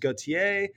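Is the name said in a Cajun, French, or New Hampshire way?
French. The name is said with a standard French pronunciation. This is the original French form. "the French pronunciation is Gauthier"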